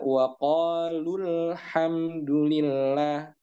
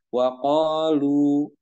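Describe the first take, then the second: First: The final vowel is short, joined to the next word. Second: The final vowel is held long before a stop. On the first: The reciter continues without stopping. "Lu-nya tidak lagi dibaca panjang ketika dia disambung" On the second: The reciter stops on this word. "ketika dia berhenti, maka dia dibaca panjang"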